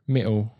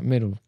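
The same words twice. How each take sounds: First: "middle" with the D swallowed; dropped D. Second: "middle" with the D sounded; D pronounced. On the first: Showing how British changes, "middle" without its D. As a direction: drop the hard D out of "middle". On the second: Showing an in-between British accent, "middle" with its D. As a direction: keep the D in "middle". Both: Shown as a demonstration. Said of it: "if you don't pronounce the D".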